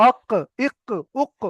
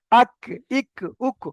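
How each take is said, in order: First: "আক, ইক, উক" with q from further inside; deep back-of-mouth q ending "আক, ইক, উক"; deep qaf. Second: "আক, ইক, উক" with a light k, further forward; crisp front k ending "আক, ইক, উক"; forward kaf. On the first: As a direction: say "আক, ইক, উক" with a heavy q at the tongue root. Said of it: "ওটা একটু ভিতর থেকে ছিল". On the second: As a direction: say "আক, ইক, উক" with k just ahead of the tongue root. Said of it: "জিভের গোড়া থেকে একটু আগে". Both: Shown as a demonstration.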